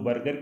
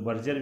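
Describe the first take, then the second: First: The middle consonant is a hard g sound. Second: The middle consonant is a j sound. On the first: "कुछ लोग बर्गर कहते हैं" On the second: "कुछ लोग बर्जर भी कहते हैं"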